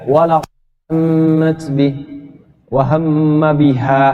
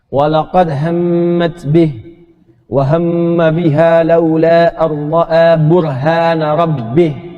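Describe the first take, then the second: First: It stops right after 'wa hamma biha'. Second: It runs on without stopping until the end. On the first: The speaker calls it wrong. "jangan begini" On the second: The speaker calls it right. "Makanya wakafnya di akhir"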